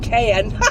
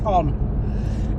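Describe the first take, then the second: First: The name sounds like the word 'cayenne'. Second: The name does not sound like 'cayenne'. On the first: "like cayenne pepper" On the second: "I think it is Con"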